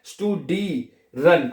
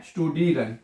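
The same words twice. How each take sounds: First: स्टूडीरन slowly as shtoo-dee-ren, long "ee"; syllable-by-syllable demo. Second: Said in the usual way. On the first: Shown as a demonstration. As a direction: stretch स्टूडीरन into three separate syllables. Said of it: "तो ई बन जाएगा ये". (स्टूडीरन को धीरे, तोड़कर, लंबी ई के साथ) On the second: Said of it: "आगे क्या आएगा".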